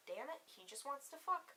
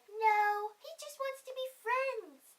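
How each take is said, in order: First: Muttered, resigned disappointment; cynical inner voice. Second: High, drawn-out naive little voice; little innocent voice. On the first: Her cynical side reacting to his overnight plan, softly resigned. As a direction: grumble it softly to yourself. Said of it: "part of me was like". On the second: Her innocent side defending the Tinder date, high naive voice. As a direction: plead it high and sweetly, like a hopeful innocent. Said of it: "the little innocent part of me". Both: Retold or imitated.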